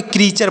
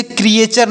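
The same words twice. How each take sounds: First: "क्रीचर" in two syllables, kree-char; correct pronunciation. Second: "क्रिएचर" in three syllables, kri-e-char; wrong pronunciation. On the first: Teacher giving the right reading, two-syllable "क्रीचर". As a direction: say "क्रीचर" with one long ee. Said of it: "क्रीचर पढ़ा जाएगा". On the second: Teacher warning students off a misreading, three-syllable "क्रिएचर". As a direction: say "क्रिएचर" with an extra e after kri. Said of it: "इसे क्रिएचर नहीं पढ़ेंगे". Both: Shown as a demonstration.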